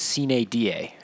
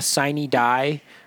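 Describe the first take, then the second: First: It is pronounced the classical Latin way. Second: It is pronounced the common anglicized way. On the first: "the Latin pronunciation is sine die" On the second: "everyone says sine die"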